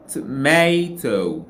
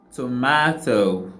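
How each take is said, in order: First: "tomato" said slowly with "-may-" in the middle; correct form. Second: "tomato" with a flat "a" as in "mat", said slowly; wrong vowel. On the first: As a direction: give "tomato" its proper "may" vowel. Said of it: "but we say". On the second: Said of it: "we didn't say". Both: Shown as a demonstration.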